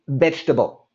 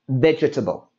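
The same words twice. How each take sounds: First: The middle vowel is dropped, giving three quick syllables. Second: All four syllables are pronounced, including the middle vowel. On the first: The speaker calls it right. "We say it quick and fast" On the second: The speaker calls it wrong. "we don't say vegetable"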